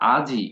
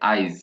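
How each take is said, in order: First: The i sound comes after the j. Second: The i sound comes before the j. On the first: "তো আওয়াজটা কিভাবে আসা উচিত? আজি, মানে আজের পরে ইটা আওয়া- আওয়াজটা আসা উচিত ছিল" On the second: "কিন্তু আমি বলছি আইজ"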